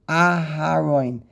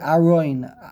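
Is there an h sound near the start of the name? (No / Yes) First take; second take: Yes; No. First: The h sound is clearly pronounced. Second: The h sound is left out entirely. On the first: The speaker calls it right. "you have to say the hay" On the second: The speaker calls it wrong. "So he would omit the hay"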